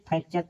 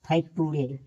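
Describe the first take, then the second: First: फ्रैक्चर said with a ch sound after the k; फ्रैक्चर as the right reading, ch not t; correct pronunciation. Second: फ्रैक्टूरे spelled out with a hard t sound; mock mistake फ्रैक्टूरे, t kept hard; wrong pronunciation. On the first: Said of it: "नहीं कि फ्रैक्टूरे". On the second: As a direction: show the wrong reading फ्रैक्टूरे, with t. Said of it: "नहीं कि". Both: Shown as a demonstration.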